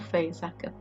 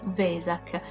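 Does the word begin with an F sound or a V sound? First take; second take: F; V. First: The word begins with an F sound. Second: The word begins with a V sound. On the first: "nella lingua tedesca la lettera V si pronuncia F" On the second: "la grafica originale è Vesak"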